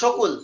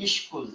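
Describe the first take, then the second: First: A vowel separates the first two consonants. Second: The first two consonants form a cluster. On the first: The speaker calls it wrong. "বর্ণ হিসাব করে যদি আমরা যেরকম উচ্চারণ করি ওরকম করলে ... সকলই হয়" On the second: The speaker calls it right. "আমরা এটাকে বলি হচ্ছে স্কুল"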